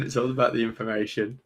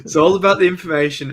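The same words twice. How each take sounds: First: Said in the usual way. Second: High, loud catchphrase delivery; put-on showman voice, raised and loud; mock showman shout. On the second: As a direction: belt it out like a showman.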